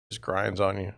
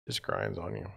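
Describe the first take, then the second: First: Said in the usual way. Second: Much softer, lower, tired repeat; worn-down fading mutter; quiet weary echo. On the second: Real, not acted. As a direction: let it sink under your breath.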